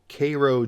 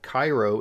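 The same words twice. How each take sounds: First: It is said the Georgia town's way. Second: It is said the Egyptian city's way. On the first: "here in the U S, you have Cairo, Georgia" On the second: "you have Cairo in Egypt"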